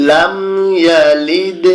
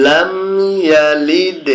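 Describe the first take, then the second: No difference in how they are said.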